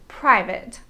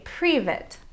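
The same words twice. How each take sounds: First: The first vowel sounds like a long 'eye'. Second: The first vowel sounds like a long 'ee'. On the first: The speaker calls it right. "the correct pronunciation is private" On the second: The speaker calls it wrong. "they say private"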